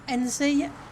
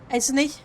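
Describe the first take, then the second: First: The n sound comes before the z sound. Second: The z sound comes before the n sound. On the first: The speaker calls it wrong. "rather than N Z" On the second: The speaker calls it right. "So it should be Esney"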